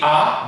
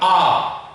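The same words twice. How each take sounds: First: The vowel is short and clipped. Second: The vowel is held long and open. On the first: The speaker calls it wrong. "So you don't say A" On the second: The speaker calls it right. "but A. ... So it's like a longer A"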